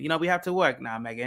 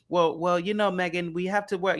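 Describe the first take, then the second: First: Lightly imitated British prince; mild mock-British accent, reasoning with his wife; put-on British accent. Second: Said in the usual way. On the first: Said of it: "I can do an accent". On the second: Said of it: "You know, I can do an accent".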